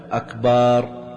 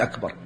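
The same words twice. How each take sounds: First: أكبر with a long last vowel, "akbaaar"; lengthened ba. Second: Said in the usual way. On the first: Shown as a demonstration. Teacher showing what not to say, أكبر drawn out to "akbaar". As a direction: stretch the vowel after the b in أكبر. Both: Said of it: "ألا يمد الباء".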